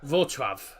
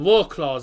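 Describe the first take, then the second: First: It starts with a V sound, Polish style. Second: It starts with a W sound, English style. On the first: This is the local pronunciation. "so that's why it's pronounced" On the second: This is how most people will say it. "everyone's going to call it"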